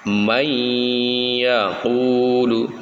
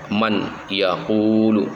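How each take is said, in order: First: The n merges into the following y sound. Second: The n is kept clearly before the y. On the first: The speaker calls it right. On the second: The speaker calls it wrong.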